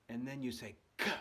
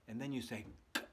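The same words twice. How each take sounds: The two takes are said the same way.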